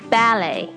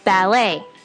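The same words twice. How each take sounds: First: The stress is on the first syllable. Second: The stress is on the last syllable.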